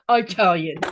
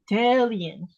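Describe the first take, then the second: First: The first vowel sounds like 'eye'. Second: The first vowel sounds like 'ee'. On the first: The speaker calls it wrong. "not Italian" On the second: The speaker calls it right. "it is not an I, it is an E"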